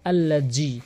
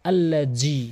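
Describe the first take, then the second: No difference in how they are said.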